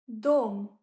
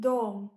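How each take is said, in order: First: Dom said loud with a round Russian o; teacher calling out dom; loud demo word. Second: Teacher repeating Dom; repeated demo word. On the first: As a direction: belt out dom so learners catch the vowel. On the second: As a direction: echo Dom for learners to copy. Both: Shown as a demonstration. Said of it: "means house".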